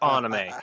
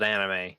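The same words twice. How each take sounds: First: It is said with the Japanese-style pronunciation. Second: It is said with the usual English pronunciation. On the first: This is the technically correct form. "It is technically pronounced anime" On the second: This is how the speaker personally says it. "I'm gonna call it anime"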